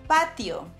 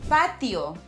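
No difference in how they are said.

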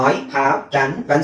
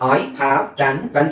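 First: The words are separated by small pauses. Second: The words are separated by small pauses.

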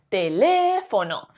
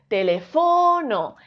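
First: The stress is on the second syllable. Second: The stress is on the third syllable. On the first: The speaker calls it right. "Si fuese le" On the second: The speaker calls it wrong. "Si fuese fo"

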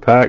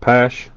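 First: The syllable ends with a k sound. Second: The syllable ends with an sh sound. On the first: The speaker calls it right. "I was told Pack" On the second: The speaker calls it wrong. "not Pash"

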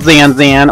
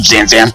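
First: The name is said in a sweet, cute tone. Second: The name is said in an angry tone. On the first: "like be all cute" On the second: "or make it angry"

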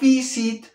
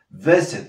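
First: The first vowel is high and sharp. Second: The first vowel is lower and less sharp. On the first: The speaker calls it wrong. "no visit" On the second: The speaker calls it right. "la I, wow, la bajamos, menos aguda"

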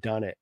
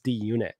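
First: The sounds run together into one short word. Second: The letter D and Unit are said separately. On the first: The speaker calls it wrong. "it's very different than Dunnit" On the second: The speaker calls it right. "he finally corrected me at the end of the pod and was like, hey, it's D-Unit"

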